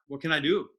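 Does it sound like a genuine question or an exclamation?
question. It is said as a genuine, open question.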